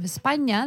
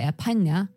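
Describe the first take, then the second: First: The s is pronounced as a full hiss. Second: The s is reduced to a breathy h. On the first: "instead of España" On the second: "very often they have just the aspiration"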